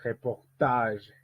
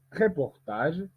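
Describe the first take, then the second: First: "Reportage" slowly, re-por-TAGE, with TAGE lengthened; stress on last syllable. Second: "reportage" stressed wrongly before its final syllable; wrong early stress. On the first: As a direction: stretch the final TAGE of "Reportage". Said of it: "On dit". (« Reportage » lent, accentué et allongé sur TAGE) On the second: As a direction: hit the start of "reportage", not TAGE. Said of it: "on ne dit pas". (« reportage » accentué à tort avant la dernière syllabe) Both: Shown as a demonstration.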